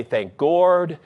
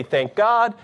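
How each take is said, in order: First: "Gord" said with an r, like the word Gord; mock mispronunciation. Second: Said in the usual way. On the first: Shown as a demonstration. To a congregation, mocking empty God talk, "Gord" with an r. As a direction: swap "God" for "Gord" to show it means nothing. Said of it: "You might as well just say". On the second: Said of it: "you could say".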